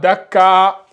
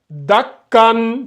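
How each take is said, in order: First: The word ends on an open vowel, without n. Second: The word ends with a final n sound. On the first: The speaker calls it wrong. "ça serait faux" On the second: The speaker calls it right. "on lit bien"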